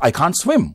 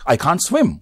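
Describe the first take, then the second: First: The verb is contracted to can't. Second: The same.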